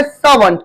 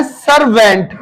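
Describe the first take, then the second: First: सर्वेंट said SAA-vunt, R silent; correct servant pronunciation. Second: सर्वेंट said as spelt, SAR-VENT; mispronounced servant. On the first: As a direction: say सर्वेंट with long AA and a weak second vowel. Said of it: "इसकी सही pronunciation होती है". (सर्वेंट का सही उच्चारण, सा-वंट) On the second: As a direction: say सर्वेंट with a full R and a clear VENT. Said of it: "ये सर्वेंट नहीं होता है". (सर्वेंट का गलत उच्चारण, सर-वेंट) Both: Shown as a demonstration.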